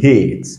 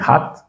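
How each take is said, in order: First: "hate" with the English ay vowel; long A. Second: "hat" with a short French-like a. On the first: Teacher contrasts the two sounds of A, long a in "hate". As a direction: say "hate" like the letter name A. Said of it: "c'est son son qui est long". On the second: Teacher contrasts the two sounds of A, short a in "hat". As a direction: say "hat" with open ah, pitch lifted. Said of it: "c'est le son qui est court". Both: Shown as a demonstration.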